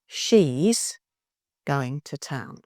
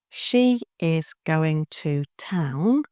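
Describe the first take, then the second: First: 'She is' is contracted into one syllable. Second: 'She is' is said as two full words.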